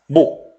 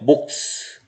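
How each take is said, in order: First: Only one final consonant is pronounced. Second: Both final consonants are pronounced.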